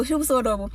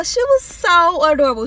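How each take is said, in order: First: "She was so adorable" said softer and lower; soft aside. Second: Said in the usual way. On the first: Shown as a demonstration. Repeating how cute the little girl was, softly. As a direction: drop it to a fond murmur.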